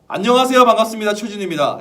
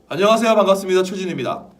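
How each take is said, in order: First: The greeting is spoken at a very loud volume. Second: The greeting is spoken at a loud volume.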